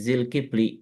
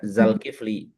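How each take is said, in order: First: The first vowel is i. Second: The first vowel is a. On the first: The person is the possessor. "Kalau jadi kepemilikan dia, jadi Zilkifli" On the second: The person is the object. "Kalau jadi objek dia, kita baca Zalkifli"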